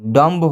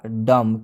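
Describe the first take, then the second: First: The word ends with an audible b sound. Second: The word ends with an m sound, no b. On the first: The speaker calls it wrong. "अगर इसका direct हम उच्चारण करते तो हो जाता डम्ब ... बिल्कुल ये उच्चारण गलत होता है" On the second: The speaker calls it right. "इसका सही उच्चारण क्या होगा, डम, क्योंकि इसमें बी साइलेंट है"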